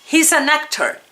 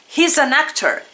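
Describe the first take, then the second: No difference in how they are said.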